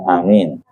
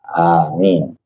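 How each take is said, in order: First: The first vowel is long, the second short. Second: Both vowels are drawn out long. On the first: "Ada a-nya panjang, min-nya pendek" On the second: "Ada yang dua-duanya panjang"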